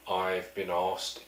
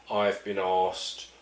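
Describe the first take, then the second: No difference in how they are said.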